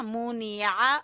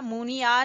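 First: मुनिया with a throaty Arabic ain on the final "a"; ain sound. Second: मुनिया ending in a simple open "a"; quick मुनिया with no throat sound on the last vowel; wrong plain vowel. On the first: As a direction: squeeze the last vowel of मुनिया from the throat. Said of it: "आइन की आवाज निकलेगी". (मुनिया के आख़िर में हलक़ से ऐन की आवाज़) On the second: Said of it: "नहीं पढ़ना". (मुनिया के आख़िर में सादा "आ", बिना ऐन के) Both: Shown as a demonstration.

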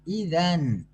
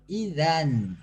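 First: İzen with İ held apart from zen; İzen said as İ then zen, clearly split; correct reading. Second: İzen run together as one word, no break; İzen slurred into a single sound; wrong reading. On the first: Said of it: "İ'yi ayrı, zen'i ayrı okuyacağız". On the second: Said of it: "İzen değil bakın". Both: Shown as a demonstration.

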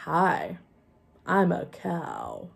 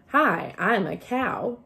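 First: Slow, plain puppet greeting; slow puppet line. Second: Plain. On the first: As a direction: move only the jaw as you speak. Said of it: "only the jaw should move". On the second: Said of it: "So if you say". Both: Shown as a demonstration.

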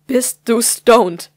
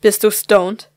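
First: Slow, louder, every word weighed, stress on du; slow menacing interrogation. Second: Louder, stern demand with stress on du; stern interrogation. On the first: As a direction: drag it out like a final warning. Mother asks again, slapping. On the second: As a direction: grill her: are YOU stoned. Mother interrogating daughter, slapping. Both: Acted.

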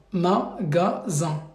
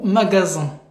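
First: Magasin drawn out very slowly, syllable by syllable; slow model word. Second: Said in the usual way. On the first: Shown as a demonstration. Teacher dictates Magasin slowly to the student. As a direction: stretch out Magasin slowly so they can read it. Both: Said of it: "pour le deuxième mot".

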